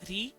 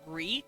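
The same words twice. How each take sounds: First: The r is a quick tap of the tongue. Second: The r is a rhotic English-style r. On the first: The speaker calls it right. "his R's were taps, so ri" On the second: The speaker calls it wrong. "instead of ri. No rhotic R"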